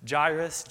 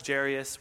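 First: Jairus with a French zh and eye sound; Jairus tried as ZHY-rus. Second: Jairus with zh and an air sound; Jairus tried as ZHAIR-ee-us. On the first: Preacher trying out the name, Jairus as ZHY-rus. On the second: Preacher settling on the name, Jairus as ZHAIR-ee-us. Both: Shown as a demonstration. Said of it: "we're just gonna go with Jairus".

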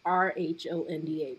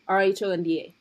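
First: Deliberate, practised "R" in "R H O N D A"; "R" in a cultivated newscaster accent, carefully spelled; cultivated standard R. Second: Easy, habitual "R" in spelling out "R H O N D A"; "R" in the original home accent, spelled briskly; native R pronunciation. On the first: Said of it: "use this accent that I've cultivated". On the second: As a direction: spell it with "R" said the way one grew up saying it. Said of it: "I grew up saying R". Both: Shown as a demonstration.

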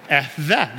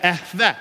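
First: Echveh said lower with a throaty kh, EKH-veh; Hebrew echveh, lower. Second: Echveh with a throaty kh, EKH-veh; Hebrew echveh. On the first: Pastor repeats the Hebrew word for the congregation, lower second take. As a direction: echo Echveh back a little lower. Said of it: "Good job". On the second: Pastor leads the congregation in repeating a Hebrew word, first take. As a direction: say Echveh for the room to echo. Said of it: "Can you do that?". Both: Shown as a demonstration.

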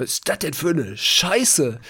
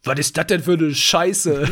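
First: Slow, higher, a lighter mimic of the surgeon; surgeon's blunt quote. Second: Slow, higher and louder, laughing through it; surgeon's blunt quote. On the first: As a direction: repeat the surgeon's line, drawn out. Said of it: "wie die das angeguckt hat". (langsam und etwas höher, die Chirurgin nachgemacht) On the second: Retold or imitated. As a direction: mimic the surgeon's rough but friendly outburst, laughing. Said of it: "die guckt das an". (laut und langsam, lachend die Chirurgin nachgemacht)

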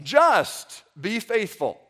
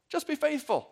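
First: Slow, with "just" drawn out and leaned on; stress on just. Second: Said in the usual way. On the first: Shown as a demonstration. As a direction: lean hard on "just" and let the rest follow slowly. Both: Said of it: "the emphasis here is on the just".

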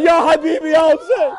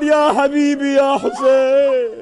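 First: High, loud lament; calling out. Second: Slow, drawn-out shout of grief; screaming out. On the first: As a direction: call out in grief. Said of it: "calling out". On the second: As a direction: wail it out slowly and loud. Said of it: "She begins to scream out". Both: Acted.

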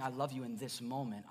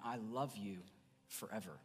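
First: Said in the usual way. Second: Tender forever. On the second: Shown as a demonstration. Pastor showing his church God's lasting love, tender and softer. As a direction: lower and softer, letting I love you forever fade out. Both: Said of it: "he's not just saying".

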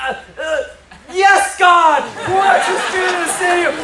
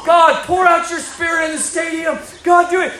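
First: High mock-startled stammer bursting into prayer; stammer, then high, hammed-up revival cry; Joy Dawson. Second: High, urgent acted prayer shout; re-enacted loud, pleading prayer; fervent revival prayer. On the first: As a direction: imitate a flustered elder swept into fervent prayer. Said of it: "And she's like". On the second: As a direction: cry out to God as if praying down revival. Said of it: "I just start praying for revival".

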